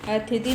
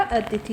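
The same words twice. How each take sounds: First: अतिथि said as a-thi-ti; wrong pronunciation. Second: अतिथि said as a-ti-thi; correct pronunciation. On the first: Teacher repeats what is not right, mispronouncing अतिथि as a-thi-ti. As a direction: swap the sounds in अतिथि, aspirated th before t. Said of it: "नहीं होता". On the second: Teacher gives the proper word, correct pronunciation of अतिथि as a-ti-thi. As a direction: keep t before aspirated th in अतिथि. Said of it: "होता है". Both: Shown as a demonstration.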